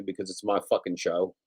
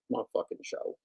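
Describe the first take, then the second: First: Said in the usual way. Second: My fucking show said in a whisper. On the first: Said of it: "repeated line plain then whisper". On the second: Shown as a demonstration. Repeating his own line to chat, whispered. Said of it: "whispered repeat".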